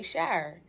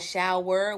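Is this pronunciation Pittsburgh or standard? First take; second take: Pittsburgh; standard. First: It is said in a Pittsburgh accent. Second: It is said in a standard American accent. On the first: "we say shower" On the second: "Instead of saying shower"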